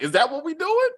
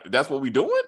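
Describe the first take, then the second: First: High, disbelieving rising question; high shocked "is that what we doing"; incredulous. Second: Said in the usual way. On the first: Retold or imitated. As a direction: ask it in sharp disbelief. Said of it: "I was like". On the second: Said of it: "He was like".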